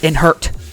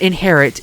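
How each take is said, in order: First: It is said like 'in-hurt', without the middle vowel. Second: It is said like the word 'inherit'. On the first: The speaker calls it right. "It's I N H E R T" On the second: The speaker calls it wrong. "It's not inherit"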